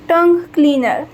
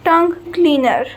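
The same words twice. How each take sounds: The two takes are said the same way.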